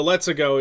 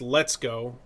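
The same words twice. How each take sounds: First: "Let's-a-go" in a mock Italian accent, slightly louder; light Italian accent on "Let's-a-go". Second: Said in the usual way. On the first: Shown as a demonstration. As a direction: say "Let's-a-go" like a cartoon Italian plumber. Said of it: "is the Italian accent". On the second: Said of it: "but at least".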